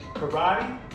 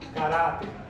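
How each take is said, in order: First: It is pronounced with English sounds. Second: It is pronounced with Spanish sounds. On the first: "I'm going to pronounce it in English first" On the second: "and then I'm going to pronounce it in Spanish"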